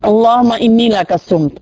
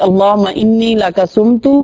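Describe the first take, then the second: First: The last word ends on a bare t sound. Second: The last word ends with a short u vowel. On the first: The reader stops after this phrase. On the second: The reader continues without stopping.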